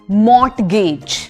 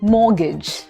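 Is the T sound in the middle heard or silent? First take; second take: heard; silent. First: The T sound in the middle is pronounced. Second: The T sound in the middle is silent. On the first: The speaker calls it wrong. "A lot of people say mortgage because वहां पे T है" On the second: The speaker calls it right. "ये silent है. So it's mortgage"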